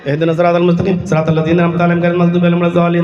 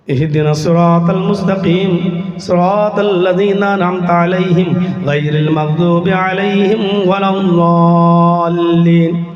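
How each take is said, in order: First: It is recited in a careless, rushed manner. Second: It is recited in a pleading, asking manner.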